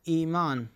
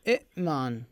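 First: A long vowel follows the first vowel, no glottal stop. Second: A glottal stop closes the first syllable. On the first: This is the form actually spoken. The speaker calls it right. "عندما نقول كلمة إيمان" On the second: This is the underlying original form. The speaker calls it wrong. "أصل الكلمة هي شنو؟ ... همزة ساكنة وقبلها همزة مكسورة"

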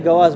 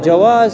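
First: The first sound is a hard g sound. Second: The first sound is a soft j sound.

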